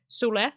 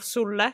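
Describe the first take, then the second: First: "sule" with a light, single L; short single L. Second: "sulle" with the L held long; long double L. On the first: Retold or imitated. Reviewer mimics actress's slip, short single L in "sule". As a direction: say "sule" without holding the L. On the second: Shown as a demonstration. Reviewer corrects actress's word, long stressed L in "sulle". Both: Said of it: "supposed to put emphasis on the L's".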